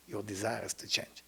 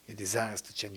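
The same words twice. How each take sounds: First: Whispered, unvoiced your desire is to change. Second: Said in the usual way. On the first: Shown as a demonstration. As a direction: breathe the line as a secret. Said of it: "repeated line, first whispered". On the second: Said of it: "same line voiced again".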